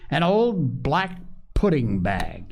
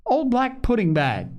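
First: Put-on slow, drawn-out boy's voice, stressing "old"; lightly voiced boy, "An old black pudding bag" said slowly with weight on "old"; boy's remark. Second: Put-on high, gleeful little girl's voice, "Old black pudding bag" chanted happily; a small child crowing with delight, much higher; merry little crow. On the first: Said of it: "he finished". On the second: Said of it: "with a merry little crow". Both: A narrator's reading.

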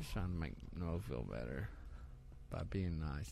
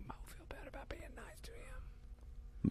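First: Hushed, low and soft; quiet. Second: Breathy unvoiced whisper. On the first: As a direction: say it under your breath. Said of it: "I can't even hear you". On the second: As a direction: whisper so he can't hear. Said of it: "Why are you whispering that?". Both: Real, not acted.

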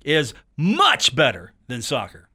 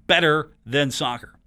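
First: "much" を強く押して下げる; stress on much. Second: Said in the usual way. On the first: Shown as a demonstration. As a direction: hit much hard, the rest trailing down. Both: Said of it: "with the emphasis on much".

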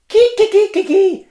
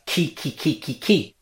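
First: Ki, ki, ki squawked much higher and louder like a cockerel; rooster call, high and loud. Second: Soft Greek rooster call. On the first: Showing viewers the Greek cockerel, high loud crow. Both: Shown as a demonstration. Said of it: "the sound that a cockerel makes".

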